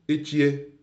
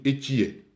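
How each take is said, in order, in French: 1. La hauteur monte sur le mot. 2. La hauteur descend sur le mot.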